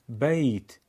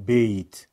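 First: بیت with an open "ay" diphthong, "bayt"; Arabic pronunciation. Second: بیت as Persian "beyt", with a closed e; Persian-accented mistake. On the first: Teacher models for learners: بیت as Arabic "bayt". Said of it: "بیت در زبان عربی". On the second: Teacher warns learners with the mistake: بیت as Persian "beyt". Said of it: "نگیم بیت". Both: Shown as a demonstration.

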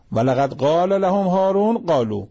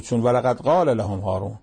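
First: Verse lifted higher, chanted with emphasis on هارون; raised recitation. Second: Said in the usual way. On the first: Shown as a demonstration. Preacher repeating the verse to the congregation, raised and chanted, stressing هارون. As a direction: lift the verse up and lean on هارون.

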